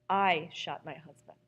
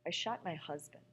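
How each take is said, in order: First: The stress falls on the word I. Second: The stress falls on the word husband.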